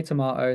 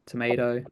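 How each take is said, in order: First: Tomato said "to-MAH-to"; British "tomahto" for tomato; British pronunciation. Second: Tomato said "to-MAY-do"; American "tomaydo" for tomato; American pronunciation. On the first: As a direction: say tomato with a long "ah" in the middle. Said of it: "some people say tomato". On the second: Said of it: "some people say". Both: Shown as a demonstration.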